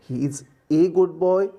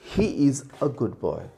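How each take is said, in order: First: The word 'a' is a long 'ay' sound. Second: The word 'a' is a short 'uh' sound. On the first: The speaker calls it wrong. "नहीं, गलत हो जाएगा" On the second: The speaker calls it right. "उसे अ कहते हैं"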